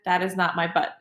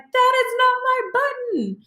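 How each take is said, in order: First: It is said calmly. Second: It is said in an upset way.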